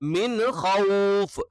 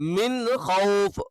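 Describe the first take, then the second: The two takes are said the same way.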